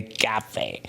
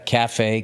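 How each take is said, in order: First: "cafe" in a soft, put-on French accent; mock French accent. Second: Said in the usual way. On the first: Shown as a demonstration. Comedian echoing the name of a French cafe, mock French accent.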